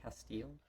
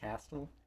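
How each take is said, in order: First: The name ends with a long 'eel' sound. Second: The name ends with a plain 'l' sound. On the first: The speaker calls it wrong. "Say Castile so fancy?" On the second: The speaker calls it right. "It's just Castle"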